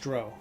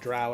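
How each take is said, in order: First: The vowel rhymes with crow. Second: The vowel rhymes with cow. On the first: This is the personally preferred pronunciation. "It was like it rhymed with crow, not cow" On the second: This is the official pronunciation. "I think officially it's a Drow elf"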